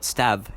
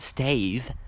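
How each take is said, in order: First: The name rhymes with 'have', with a short vowel. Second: The name rhymes with 'cave', with a long vowel. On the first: The speaker calls it right. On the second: The speaker calls it wrong.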